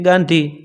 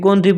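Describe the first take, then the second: First: The first vowel is an open 'aa' sound. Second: The first vowel is a rounded 'o' sound. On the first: This is the Saurashtra way of saying it. "આપણે કંઈ ગાંધી" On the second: This is the North Gujarat way of saying it. "તો એ કે ગોંધી"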